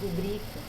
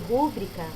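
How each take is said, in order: First: The stress is on the second syllable. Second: The stress is on the first syllable. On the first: The speaker calls it right. "rubrica é a palavra correta" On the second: The speaker calls it wrong. "É a mesma coisa de rúbrica no lugar de rubrica"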